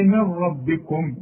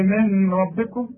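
First: "من ربكم" nun merged into ra with no nasal; no ghunna. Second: "من ربكم" with a nasal hum before ra; wrong ghunna. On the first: Shown as a demonstration. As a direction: roll straight into the ra. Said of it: "تقول لي". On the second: Retold or imitated. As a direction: imitate the nasalized mistake. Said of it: "مش تقول لي".

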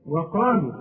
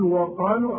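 First: "وقالوا" with a light, thin waw, said correctly; right take. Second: "وقالوا" said the wrong way, marked as a mistake; wrong take. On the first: Teacher showing students the correct recitation of "وقالوا". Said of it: "لا". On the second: Teacher showing students the wrong recitation of "وقالوا". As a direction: say "وقالوا" wrongly on purpose to show the error. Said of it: "أو لا غلط". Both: Shown as a demonstration.

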